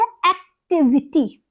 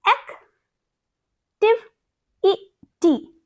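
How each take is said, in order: First: Said in the usual way. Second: एक्टिविटी stretched very slowly, higher, syllable by syllable; syllable split. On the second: Shown as a demonstration. Teacher slowly splitting एक्टिविटी into syllables. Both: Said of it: "देखिए अब यहाँ पे क्या है?".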